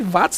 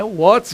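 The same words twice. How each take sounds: First: The word is said with the colloquial pronunciation. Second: The word is said with the standard pronunciation. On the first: The speaker calls it wrong. "nada de watts não" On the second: The speaker calls it right. "é watts, gente"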